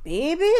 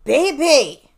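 First: It is said in a calm way. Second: It is said in an angry way.

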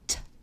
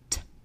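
First: The t sound is fully released with a puff. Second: The t sound is fully released with a puff.

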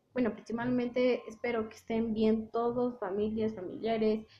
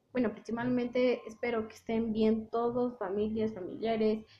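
The two takes are said the same way.

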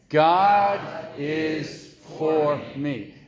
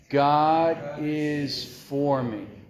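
First: It is said louder with more energy. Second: It is said plainly with ordinary energy. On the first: "Let's say it with a little bit more" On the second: "Let's just say those four words"

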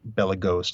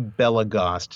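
First: The last syllable has a long closed O, like toast. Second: The last syllable has a short open O, like crossed. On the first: The speaker calls it wrong. "not Belagost" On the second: The speaker calls it right. "it's actually Belagost"

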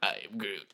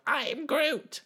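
First: It imitates the voice of adult Groot. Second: It imitates the voice of baby Groot.

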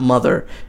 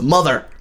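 First: The word is said flatly, without exclamation. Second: The word is said forcefully, as an exclamation. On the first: The speaker calls it wrong. "It's not Mother" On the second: The speaker calls it right. "with the exclamation mark"

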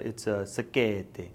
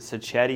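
First: The word is said in an Italian accent. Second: The word is said in a plain American accent. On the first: "he said it like that. It's the only word he said in an Italian accent" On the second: "is it sacchetti?"

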